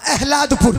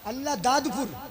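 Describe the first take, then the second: First: The name is run together into one short word. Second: The name is said fully as separate words.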